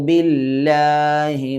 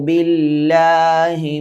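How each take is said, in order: The two takes are said the same way.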